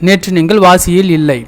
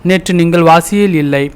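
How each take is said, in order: No difference in how they are said.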